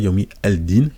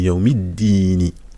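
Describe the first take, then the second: First: The L sound is pronounced before din. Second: The L sound is dropped before din. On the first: The speaker calls it wrong. "on dit pas" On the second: The speaker calls it right. "on dit"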